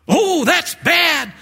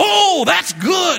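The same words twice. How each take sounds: First: High, slow, hammed-up dismay; dismayed customer. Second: High, slow, shouted mock delight; delighted customer. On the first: Preacher plays the customer groaning, high and slow. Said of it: "customer's reply in sketch". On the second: Preacher plays the customer, shouting high delight. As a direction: whoop it like an excited customer. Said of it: "The guy in the chair would go".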